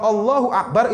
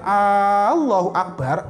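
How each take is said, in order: First: The first vowel of Allahu is short. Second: The first vowel of Allahu is drawn out long. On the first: God is great. The speaker calls it right. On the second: Is God great? The speaker calls it wrong.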